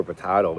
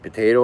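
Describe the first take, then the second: First: Potato with an open "ah" in the middle; potahto pronunciation. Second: Potato with a long "ay" in the middle; potayto pronunciation. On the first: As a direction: say potato as "po-TAH-to". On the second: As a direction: say Potato as "po-TAY-to". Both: Shown as a demonstration. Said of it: "Am I saying it wrong?".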